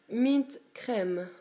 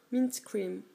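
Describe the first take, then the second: First: Mint Crème read the French way, crème with an open French è. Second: Mint Cream in an English accent, cream as a long English ee. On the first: Vlogger reads the polish label to viewers, French pronunciation. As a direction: say Mint Crème as a French word, crème rhymes with thème. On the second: Vlogger corrects the polish name for viewers, English accent. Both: Shown as a demonstration. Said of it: "Avec l'accent anglais".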